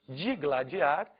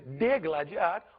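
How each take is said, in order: First: The first syllable is said with an 'i' vowel. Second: The first syllable is said with an 'e' vowel. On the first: The speaker calls it right. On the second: The speaker calls it wrong.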